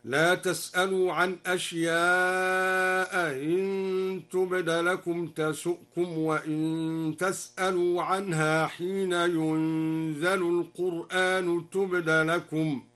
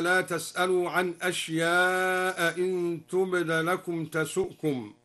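First: أشياء إن recited slowly with the second hamza softened, not fully stopped; slow chant, أشياء إن with a lightened hamza; eased second hamza. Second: Said in the usual way. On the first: Shown as a demonstration. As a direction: glide through the hamza of إن after أشياء. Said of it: "قرأ الدوري بتسهيل الهمزة الثانية، هكذا". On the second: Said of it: "بتسهيل الهمزة الثانية".

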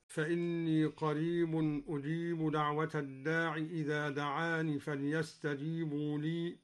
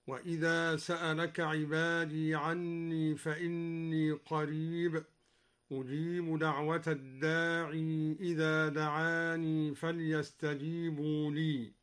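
First: Said in the usual way. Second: الداعي said ad-daa'ii and دعاني said da'aanii; الداعي, دعاني with a final long ii; keep the final ya. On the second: Shown as a demonstration. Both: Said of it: "قرأ الدوري بإثبات الياء وصلا".

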